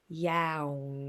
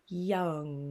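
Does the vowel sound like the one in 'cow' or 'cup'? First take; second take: cow; cup. First: The vowel is said like the 'ow' in cow. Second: The vowel is said like the 'u' in cup. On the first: The speaker calls it wrong. "So let's try the ow first" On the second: The speaker calls it right. "Use an ah, couldn't we?"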